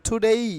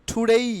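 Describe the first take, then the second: Both takes have the same delivery.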